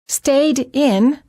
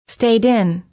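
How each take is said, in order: First: The words are said as two separate words. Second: The final d runs into the next vowel.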